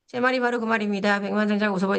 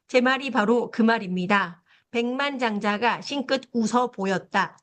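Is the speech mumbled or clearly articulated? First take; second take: mumbled; clear. First: The words are mumbled with little mouth movement. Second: The words are articulated with clear, open vowels.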